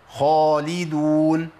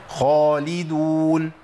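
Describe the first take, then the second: The two takes are said the same way.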